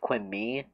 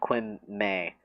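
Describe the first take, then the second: First: The name ends with a 'mee' sound. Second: The name ends with a 'may' sound. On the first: The speaker calls it wrong. "a lot of people think it's pronounced Quimmy" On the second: The speaker calls it right. "but no, it's Quim May"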